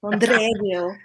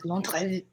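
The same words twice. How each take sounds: First: Put-on Londreville rolled out in a Castilian accent. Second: Londreville said with Castilian vowels; a Castilian accent on Londreville. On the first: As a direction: give Londreville a Castilian lilt. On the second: Retold or imitated. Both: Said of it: "in her Castilian accent".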